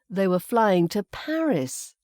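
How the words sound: The word Paris carries the stress. They went to Paris rather than another city. "We've put the emphasis there on the location of Paris"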